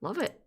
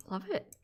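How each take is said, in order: First: Said in the usual way. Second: Higher, softer, rising at the end. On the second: Shown as a demonstration. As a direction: float it up softly.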